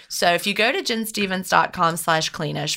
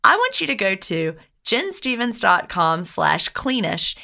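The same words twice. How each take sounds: First: Said in the usual way. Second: Jen stevens dot com slash cleanish spelled out slowly, each part given weight; slow it right down so listeners catch the address; slow, careful URL. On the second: Shown as a demonstration. Host slowly spelling out the website for listeners, carefully stressed. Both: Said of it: "instead of reading it like I had it written".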